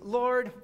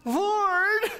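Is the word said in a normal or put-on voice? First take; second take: normal; put-on. First: It is said in his normal voice. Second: It is said in a changed character voice.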